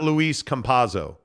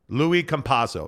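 First: The first name ends with an s sound. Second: The first name ends without an s sound. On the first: The speaker calls it wrong. "Not Luis Campaso" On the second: The speaker calls it right. "As in Louis Vuitton"

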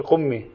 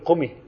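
First: The m sound is held long and doubled. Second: The m sound is short and single. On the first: The speaker calls it wrong. "ليس صحيح أن نقول القمي" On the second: The speaker calls it right. "لازم نقول قمي لأنه ما في تشديد على قم"

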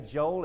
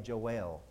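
First: The ending is blurred, close to sounding like Job. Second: The final 'el' sound is clearly pronounced. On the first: The speaker calls it wrong. "it sounds like I'm saying Job" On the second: The speaker calls it right. "so I say Joel. So you'll know it's E-L"

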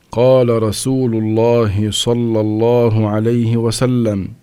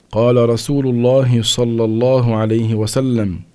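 No difference in how they are said.

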